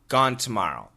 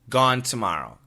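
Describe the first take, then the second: First: Tomorrow begins with a clear T sound. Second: The same.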